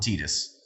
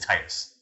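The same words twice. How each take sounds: First: The first syllable does not sound like 'tide'. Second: The first syllable sounds like 'tide'. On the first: The speaker calls it wrong. "you're wrong if you call him Titus" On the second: The speaker calls it right. "His name is Titus. It makes sense. The tides"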